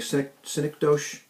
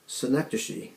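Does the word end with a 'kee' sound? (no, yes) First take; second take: no; yes. First: The word is read as spelled, without 'kee'. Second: The word ends with a 'kee' sound. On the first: The speaker calls it wrong. "It looks like synecdoche" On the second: The speaker calls it right. "I think is how you say it"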